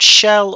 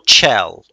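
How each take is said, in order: First: The name begins with a soft sh sound. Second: The name begins with a sharp ch sound. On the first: "I've been saying Shell before in the past" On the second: "C H is a ch sound"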